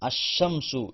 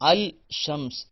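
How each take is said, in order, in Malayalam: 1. 'l' ശബ്ദം ഇരട്ടിച്ച 'sh'യിൽ ലയിക്കുന്നു. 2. 'l' ശബ്ദം 'sh'ക്ക് മുമ്പ് ഉച്ചരിക്കുന്നു. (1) "അഷംസു എന്നാണ്" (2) "അൽ ഷംസ് എന്ന് പറയാൻ പാടില്ല"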